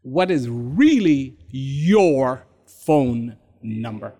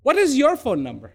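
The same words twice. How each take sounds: First: Slow and low, word by word; deliberate, drawn-out probing question; slow, weighty question. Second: Quick, run-together question; fast, matter-of-fact asking; brisk question. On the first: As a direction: space out each word with weight. Question re-put slowly for weight. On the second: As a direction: ask it briskly in one breath. Question first put briskly. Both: Shown as a demonstration.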